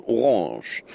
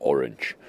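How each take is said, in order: First: Said in the usual way. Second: Orange with a put-on French sound; fake French accent. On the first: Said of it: "spreche ich das mal lieber französisch". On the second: Shown as a demonstration. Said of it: "mit ihr pseudo-französischem Akzent aus". (Orange mit pseudo-französischem Akzent)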